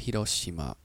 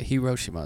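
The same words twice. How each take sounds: First: It is said with a Japanese accent. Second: It is said with an American accent. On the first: "the R isn't an R. It's Hiroshima" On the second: "Hiroshima is how people here would say it"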